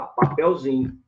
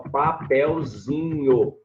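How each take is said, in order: First: Said in the usual way. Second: "papelzinho" stretched out slowly in syllables. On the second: Shown as a demonstration. Teacher showing students the diminutive, slow syllable by syllable. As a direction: draw out each syllable of "papelzinho".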